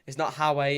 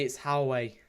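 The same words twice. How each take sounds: First: "Howie" said the Sunderland way; Sunderland-style pronunciation. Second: "Howie" said the Newcastle way; Newcastle-style pronunciation. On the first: Streamer correcting a viewer's word, Sunderland pronunciation. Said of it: "Sunderland fans say Howie". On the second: Streamer correcting a viewer's word, Newcastle pronunciation. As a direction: give "Howie" the Geordie pronunciation. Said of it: "Newcastle fans say Howie". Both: Shown as a demonstration.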